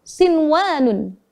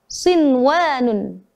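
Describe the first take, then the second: Both takes have the same delivery.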